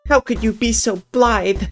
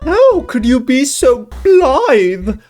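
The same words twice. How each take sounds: First: It is read in a plain, ordinary voice. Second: It is read in a silly put-on voice. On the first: The speaker calls it wrong. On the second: The speaker calls it right.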